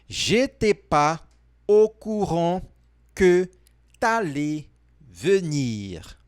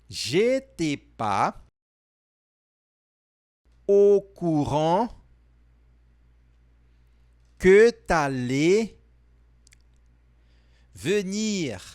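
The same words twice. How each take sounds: First: The sentence is said at normal speed. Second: The sentence is said more slowly.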